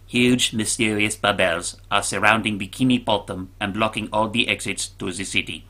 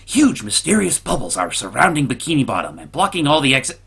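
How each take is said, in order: First: It is said in a put-on impersonation voice. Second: It is said in his own normal voice.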